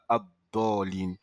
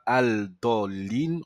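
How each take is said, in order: First: The l merges into a doubled following consonant. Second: The l of the article is clearly pronounced. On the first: The speaker calls it right. "on dira Abdolin" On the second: The speaker calls it wrong. "on ne dira pas Al-Dolin"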